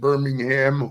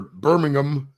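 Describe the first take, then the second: First: It is said with an American pronunciation. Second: It is said with a British pronunciation.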